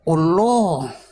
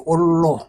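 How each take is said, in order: First: The L sound is doubled and lengthened. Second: The vowel is changed to an O sound. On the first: "L-nya didobel" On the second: "huruf A-nya dua itu jadi O"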